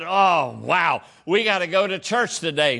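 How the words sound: It sounds reluctant and grudging.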